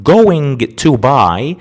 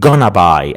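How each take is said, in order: First: Each word of 'going to' is said in full. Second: 'Going to' is squeezed into one reduced word. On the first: "rather than saying I am going to buy" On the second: "in spoken English, you can say I am gonna"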